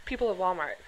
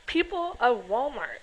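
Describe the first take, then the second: First: Said in the usual way. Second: Drawn-out, slower repeat of the name; slow disbelief. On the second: Real, not acted. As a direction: stretch out People of Walmart in disbelief.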